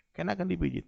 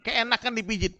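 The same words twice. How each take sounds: First: "Keenakan" repeated quietly, falling; softer falling "Keenakan"; soft echo. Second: "Keenakan" stretched and raised; emphatic. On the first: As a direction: drop the voice on the repeat "Keenakan dipijit". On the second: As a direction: lean on "Keenakan" to get the laugh. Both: Shown as a demonstration.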